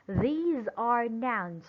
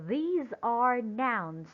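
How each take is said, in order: Both takes have the same delivery.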